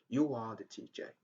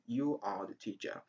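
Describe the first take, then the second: First: A w-like glide links you and are. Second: You and are are said with no glide. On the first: The speaker calls it right. "it's better to say you are the teacher" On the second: The speaker calls it wrong. "Instead of saying you are the teacher"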